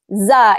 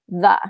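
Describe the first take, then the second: First: The word starts with a z sound. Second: The word starts with a th sound. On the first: "use a z instead of a th" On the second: "instead of a th"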